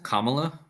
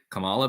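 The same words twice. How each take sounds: First: Kamala stressed on the first syllable, KAH-muh-luh; official pronunciation of Kamala. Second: Kamala stressed in the middle, kuh-MAH-luh; habitual pronunciation of Kamala. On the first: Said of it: "it's actually pronounced". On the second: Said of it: "but I just always say". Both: Shown as a demonstration.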